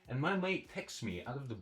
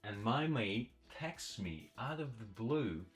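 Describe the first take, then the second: First: The sentence is read at a faster pace. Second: The sentence is read at a slow pace. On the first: "Let's try a bit faster" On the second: "Let's read it slowly"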